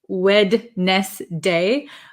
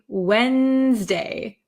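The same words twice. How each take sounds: First: The middle D sound is pronounced. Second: The middle D sound is left out. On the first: "it looks like Wednesday" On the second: "I kind of take the D sound out"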